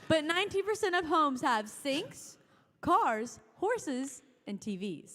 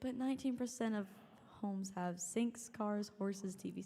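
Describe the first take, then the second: First: The voice stays bright and cheerful to the end. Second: The voice drops and sounds glum at the end.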